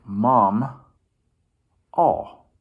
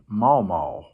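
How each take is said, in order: First: The word sounds like 'mom' plus 'all'. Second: The word sounds like 'maw' said twice. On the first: The speaker calls it right. "I would pronounce it like mom, all" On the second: The speaker calls it wrong. "sometimes you hear people say maw maw"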